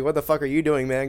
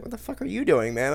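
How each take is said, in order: First: Said in the usual way. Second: Mock gamer. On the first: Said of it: "I'm not good enough to say". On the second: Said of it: "they're gonna be like".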